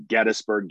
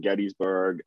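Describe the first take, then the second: First: Gettysburg with short middle, GET-is-burg; local pronunciation. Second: Gettysburg with long EE, GET-ees-burg, softer; outsiders' pronunciation. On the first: Host runs through both versions, local pronunciation. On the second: Host runs through both versions, outsiders' pronunciation. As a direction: sound out "ees" in Gettysburg, lower. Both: Shown as a demonstration.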